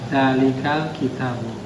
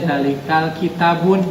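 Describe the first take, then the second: First: The last word ends in a plain u vowel. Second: The last word ends with an added n sound. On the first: The speaker calls it right. "Jadi sudah tertentu. Tanwinnya harus dibuang" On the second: The speaker calls it wrong. "nggak boleh zalikal kitabun. Nah itu salah"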